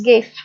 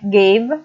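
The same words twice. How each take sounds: First: The final consonant is voiceless. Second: The final consonant is voiced. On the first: "these words become voiceless" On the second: "a word like gave becomes"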